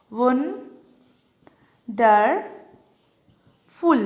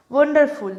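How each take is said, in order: First: "wonderful" very slowly, long pauses between three syllables. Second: Said in the usual way. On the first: Shown as a demonstration. Teacher showing how wonderful breaks up, syllable by syllable. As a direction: isolate each syllable of "wonderful". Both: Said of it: "আমি ভেঙে দেখাই".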